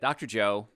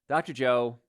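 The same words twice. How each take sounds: First: It is said in the speaker's usual accent. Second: It is said in a put-on British accent.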